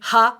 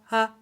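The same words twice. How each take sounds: First: The vowel starts with a breathy h sound. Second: The vowel starts smoothly without breath or catch. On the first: The speaker calls it wrong. "Notice I'm not saying ha" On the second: The speaker calls it right. "I'm just opening my throat and starting the sound"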